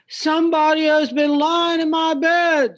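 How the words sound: It is said in a big deep voice.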